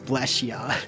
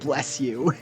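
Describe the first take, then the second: First: The last word is reduced to 'ya'. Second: The last word is a full 'you'. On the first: This is how the speaker misheard the phrase. The speaker calls it wrong. "I always heard it as bless ya" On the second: This is the actual phrase. The speaker calls it right. "instead of bless you"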